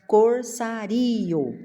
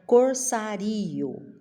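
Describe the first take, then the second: First: The ending -rio is split into two syllables. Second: The ending -rio is split into two syllables.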